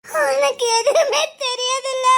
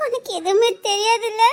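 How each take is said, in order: First: Breaking into tears. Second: Said in the usual way. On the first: Acted. Woman to her friend, sobbing the repeat. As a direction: let the question crack into crying.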